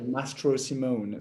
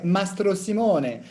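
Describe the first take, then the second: First: The name is said with an English accent. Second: The name is said with an Italian accent. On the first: This is how English-speaking countries say it. "a bit more uh, English American accent" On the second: This is how Italians say it. "the Italians would say"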